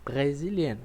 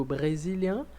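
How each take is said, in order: First: Brésilienne ending in a clear n; brésilienne closing on an open e and n; French feminine. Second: Brésilien, nasal ending, no n sounded; brésilien ending in a nasal vowel; French masculine. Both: Shown as a demonstration. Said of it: "Então eu digo".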